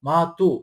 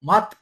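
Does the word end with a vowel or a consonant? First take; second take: vowel; consonant. First: The word ends with a final u vowel. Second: The word ends on a bare t sound. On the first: The speaker calls it right. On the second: The speaker calls it wrong.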